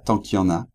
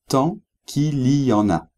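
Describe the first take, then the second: First: It is said quickly with sounds dropped. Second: It is said fully with every sound pronounced. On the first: "on les dit rapidement, ... on le prononce comme ça" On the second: "il veut dire"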